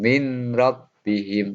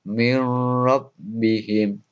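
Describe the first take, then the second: First: The n is pronounced clearly before the r. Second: The n merges directly into the following r. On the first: The speaker calls it wrong. "bukan min robbihim" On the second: The speaker calls it right. "nunnya itu tidak dibaca jelas ya. Ini langsung mirrobbihim"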